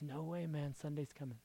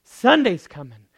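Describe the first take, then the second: First: Quiet promise; hushed Sunday's coming. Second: Louder ringing Sunday's coming; triumphant call. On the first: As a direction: murmur it close. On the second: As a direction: proclaim it. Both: Acted. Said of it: "he says".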